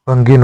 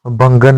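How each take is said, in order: First: भंगिन ending in -गिन; correct form. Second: भंगन ending in -गन; wrong form. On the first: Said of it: "भंगिन होता है". (सही उच्चारण भंगिन) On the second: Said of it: "भंगन नहीं होता". (गलत उच्चारण भंगन) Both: Shown as a demonstration.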